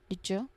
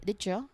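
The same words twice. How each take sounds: First: The d and y blend into a j sound. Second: The same.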